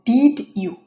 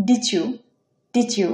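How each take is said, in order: First: Said in the usual way. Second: "ডিচু" with D and Y fused into ch/j; merged sounds. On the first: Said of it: "তাহলে কি হচ্ছে হবে". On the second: Shown as a demonstration. Teacher models merging, "ডিচু" as di-choo. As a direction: say "ডিচু" as one word, did-joo. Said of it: "চ উচ্চারিত হবে".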